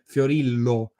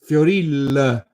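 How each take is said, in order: First: The name ends in a full clear o vowel. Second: The name ends in a weak schwa-like vowel. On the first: This is the Standard Italian way to say it. "as I say in Standard Italian" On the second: This is how people in Naples say it. "they pronounce these last names as Fioril"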